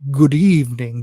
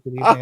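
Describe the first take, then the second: First: It is said in a spooky, dramatic voice. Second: It is said in a plain, ordinary voice. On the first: It would have matched the spooky intro. The speaker calls it right. "but he he didn't say it like that" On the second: The spooky moment was lost. The speaker calls it wrong. "He just said "good evening.""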